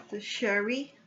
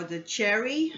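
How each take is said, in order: First: "Sherry" begun with a SH sound; soft SH pronunciation. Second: "Cherry" begun with a CH sound; hard CH pronunciation. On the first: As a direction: say "Sherry" with SH, as in shoe. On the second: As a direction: say "Cherry" like the fruit, with CH. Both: Real, not acted. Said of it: "I don't know how they pronounce it".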